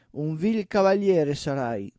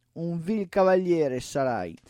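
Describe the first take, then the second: The two takes are said the same way.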